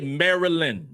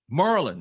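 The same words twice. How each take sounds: First: It is said the way outsiders pronounce it. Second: It is said the way local residents pronounce it. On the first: The speaker calls it wrong. "you don't say Maryland" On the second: The speaker calls it right. "That's for my my Maryland folks"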